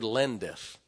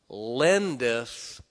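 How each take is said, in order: First: Said in the usual way. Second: "lendeth" drawn out slow and loud; stress on lendeth. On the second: Shown as a demonstration. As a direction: lean on "lendeth", stretching it. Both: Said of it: "Circle that word, lendeth".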